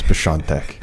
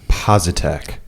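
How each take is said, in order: First: The surname is said with a Polish pronunciation. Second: The surname is said with an American pronunciation. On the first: "people from Poland will tell me how to say my last name" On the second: "That's the American pronunciation of it"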